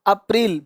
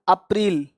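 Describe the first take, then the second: No difference in how they are said.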